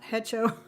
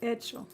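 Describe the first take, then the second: First: The word begins with an audible H sound. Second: The word begins with no H sound. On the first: The speaker calls it wrong. "it's not hecho" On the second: The speaker calls it right. "The H is silent"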